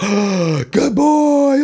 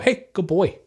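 First: It is said with gushing excitement. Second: It is said calmly and plainly.

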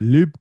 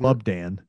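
First: It is said in a Scottish-sounding accent. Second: It is said in his plain accent.

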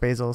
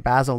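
First: The first vowel is long, as in 'bay'. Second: The first vowel is short, as in 'bat'. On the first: "not basil" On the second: "in British English, you would say basil"

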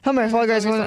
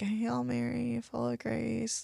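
First: The prayer is rattled off very quickly. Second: The prayer is said slowly and deliberately. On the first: The prayer is recited without real engagement. The speaker calls it wrong. "the really fast prayers" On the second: The person is fully engaged in the prayer. The speaker calls it right. "someone who's like sitting there like"

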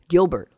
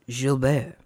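First: The name is said with English pronunciation. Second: The name is said with French pronunciation.

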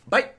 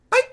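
First: It is said in a very deep voice. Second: It is said in a higher, lighter voice.

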